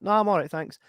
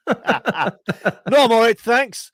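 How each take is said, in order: First: Higher, lightly acted polite decline; polite refusal. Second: High, loud hammed-up decline; loud embarrassed refusal. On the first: Shopper answers someone offering help in a shop, polite refusal. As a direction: turn them down politely, pitched up at normal volume. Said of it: "And you're like". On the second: Shopper realises the old lady was being addressed, loud mock refusal. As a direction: call it out far too loudly and high. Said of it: "and I'm like".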